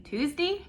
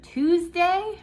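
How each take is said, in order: First: "Tuesday" ending in a short "dee"; mom's pronunciation. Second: Said in the usual way. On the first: Shown as a demonstration. Daughter showing how she talks like mom, "Tuesday" ending in "dee". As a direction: say "Tuesday" with "day" reduced to "dee". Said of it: "we say Tuesday". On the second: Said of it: "And instead of Tuesday".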